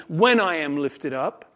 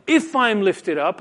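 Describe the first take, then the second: First: "When" stressed as the corrected word. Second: "if" set off as the word in question; stress on IF. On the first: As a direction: lean on "When", then let the tune fall. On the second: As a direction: lean on "if", lifting the tune. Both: Shown as a demonstration. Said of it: "a better translation would be".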